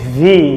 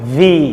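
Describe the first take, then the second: The two takes are said the same way.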